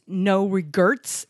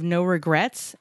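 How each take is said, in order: First: "regrets" said as "re-GURTS"; mispronounced regrets. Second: Said in the usual way. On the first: Shown as a demonstration. Tattoo artist's misspelling read aloud, "regrets" as "regurts". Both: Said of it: "instead of".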